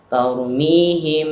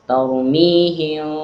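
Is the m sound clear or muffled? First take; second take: clear; muffled. First: The m is fully closed and clear. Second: The m is muffled with lips slightly open. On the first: The speaker calls it wrong. "itu mim jelas" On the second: The speaker calls it right. "Kalau mim samar"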